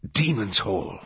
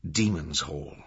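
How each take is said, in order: First: Mildly gasped realisation; awed gasp. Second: Said in the usual way. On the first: A narrator's reading. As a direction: exclaim it with a touch of shock. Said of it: "Langdon gasped".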